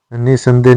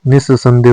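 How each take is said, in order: First: निसंदेह with one short s; no doubling in निसंदेह; single-s pronunciation. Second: निस्संदेह with a long double s; doubled s. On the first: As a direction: say निसंदेह as ni-sandeh. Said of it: "निसंदेह नहीं होता है". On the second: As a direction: hold the s in निस्संदेह. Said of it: "निस्संदेह होता है". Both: Shown as a demonstration.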